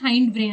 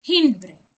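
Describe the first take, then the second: First: The vowel in 'hind' is long, as in 'kind'. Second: The vowel in 'hind' is short, as in 'tin'.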